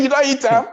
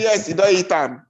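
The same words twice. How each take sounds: First: A high, shocked question; can't believe his ears; shocked disbelief. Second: Said in the usual way. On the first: Retold or imitated. Shocked son hears parrot eaten.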